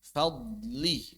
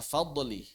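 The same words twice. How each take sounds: First: The consonant is held steady without an echo. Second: The consonant bounces with an echoing release. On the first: The speaker calls it right. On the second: The speaker calls it wrong.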